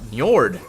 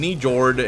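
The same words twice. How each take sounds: First: The starting N is light and blended. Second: The starting N is pronounced too strongly.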